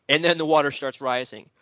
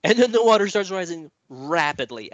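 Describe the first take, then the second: First: Said in the usual way. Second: Higher and louder, pressing the story forward; building urgency. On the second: Acted. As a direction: ramp it up as the water climbs. Builds the flood moment.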